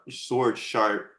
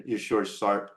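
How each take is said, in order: First: "sword sharp" drawn out slowly, each word weighted; slow right down to drive the point home; "your sword sharp" stretched slowly like a motto; slow for emphasis. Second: Said in the usual way. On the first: Shown as a demonstration.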